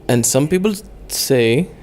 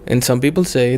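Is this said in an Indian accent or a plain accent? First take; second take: Indian; plain. First: It is spoken with an Indian accent. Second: It is spoken without any put-on accent. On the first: "why am I doing an Indian accent?" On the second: "I'm not doing it right now"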